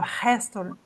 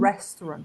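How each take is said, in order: First: The first R sounds like an H. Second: The first R is an English-style R. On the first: The speaker calls it wrong. "Daí restaurant seria um H aqui" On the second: The speaker calls it right. "Então é"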